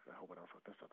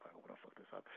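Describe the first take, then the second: First: Much softer nervous muttering; anxious self-talk, barely audible; under breath. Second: Nervous whisper, much lower and softer; anxious whispered self-talk. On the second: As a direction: whisper the worry to yourself. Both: Retold or imitated. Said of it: "I'm just like".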